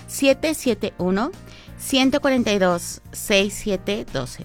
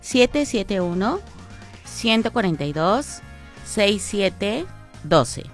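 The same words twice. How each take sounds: First: It is read at normal speed. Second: It is read slowly and calmly.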